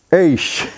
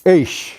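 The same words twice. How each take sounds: First: "Eish" repeated as one syllable, ay-sh, falling at the end; South African eish. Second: "eish" said as one syllable, ay-sh, with a falling tune; South African eish. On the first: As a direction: say "Eish" once more, clearly, with the voice dropping. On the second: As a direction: teach the word "eish" slowly: ay then sh, voice falling. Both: Shown as a demonstration. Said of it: "The word for today is the South African".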